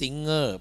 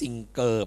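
First: Only the ng sound, with no hard g. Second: A hard g sound follows the ng sound. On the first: The speaker calls it right. "ต้องพูดว่า singer เป็นเสียงงองู" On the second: The speaker calls it wrong. "ไม่พูดว่า"

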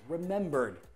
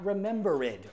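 First: The ending joins the word with no extra syllable. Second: The ending is said as an extra syllable. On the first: The speaker calls it right. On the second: The speaker calls it wrong.

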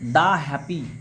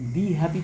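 First: The word 'the' is said with a short 'thuh'. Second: The word 'the' is said with a long 'thee'. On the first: The speaker calls it right. "এখানে দ্য happy" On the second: The speaker calls it wrong. "দি happy তো বলছি না আমরা"

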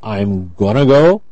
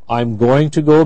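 First: The words 'going to' are reduced to 'gonna'. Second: The words 'going to' are said in full.

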